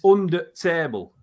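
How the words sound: The word 'the' is reduced into 'under'. "They'll say it's"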